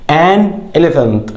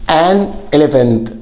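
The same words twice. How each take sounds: First: "An elephant" said very slowly, "an" stressed and falling; drawn-out classroom model of "An elephant"; slow model word. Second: "An elephant" again slowly, "an" stressed and falling; second slow model of "An elephant"; slow model word. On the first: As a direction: spell out "An elephant" slowly for learners. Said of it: "slow modelled pronunciation". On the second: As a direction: repeat "An elephant" slowly for the class. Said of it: "slow modelled pronunciation again". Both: Shown as a demonstration.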